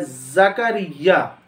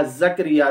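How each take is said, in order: First: Slow ज़करिया as za-ka-riy-ya; correct pronunciation. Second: ज़करिया as zak-ri-ya, two consonants joined; common mispronunciation. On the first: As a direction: say ज़करिया with a after k and doubled y. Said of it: "इसका सही तलफ़्फ़ुज़ है". (ज़करिया, काफ पर ज़बर, ये पर तशदीद) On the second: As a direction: say ज़करिया with no vowel after k. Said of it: "काफ पर जज़्म". (ज़करिया, काफ पर जज़्म के साथ) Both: Shown as a demonstration.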